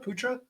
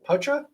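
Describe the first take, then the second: First: The first vowel sounds like 'oo' in poutine. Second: The first vowel sounds like 'ow' in pout. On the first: "Like poutine?" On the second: "Like pout?"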